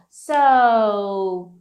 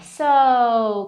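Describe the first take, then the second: First: The word is drawn out with a hesitant tune. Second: The word is short and clipped. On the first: The speaker calls it right. "Olha a entonação, ó. So" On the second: The speaker calls it wrong. "não é so"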